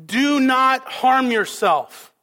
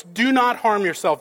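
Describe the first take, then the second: First: Slow, loud, higher urgent command; loud cry. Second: A touch louder command, barely raised; understated call to stop him; mild retold cry. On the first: Retold or imitated. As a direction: call it out slowly to stop him. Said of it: "in a loud voice". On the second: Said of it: "Paul cries out in a loud voice".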